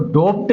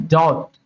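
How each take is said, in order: First: "डोप्ट" with an O vowel and a sounded P; mispronounced doubt. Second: Said in the usual way. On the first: Shown as a demonstration. Teacher showing learners what not to read, mispronounced "डोप्ट" with a P. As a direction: say "डोप्ट", pronouncing the silent letter as P. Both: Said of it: "इसको डोप्ट नहीं पढ़ना है".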